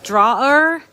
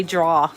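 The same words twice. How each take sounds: First: "drawer" said with the full R ending, as draw-er; proper drawer. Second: "draw" said for "drawer" with no R, as in New England. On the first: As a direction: carefully say "drawer" with both syllables, ending in R. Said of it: "I think it's supposed to be drawer". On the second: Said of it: "that's my New England accent". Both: Shown as a demonstration.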